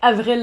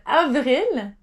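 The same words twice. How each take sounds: First: It is pronounced as an English name. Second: It is pronounced as a French word. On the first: It names a singer. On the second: It names the month of April. "but avril for April"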